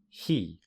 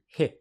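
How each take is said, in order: First: The vowel is full and long. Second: The vowel is reduced to a weak sound. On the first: "The strong form of he is he" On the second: "the vowel can become reduced to hi when you speak very quickly"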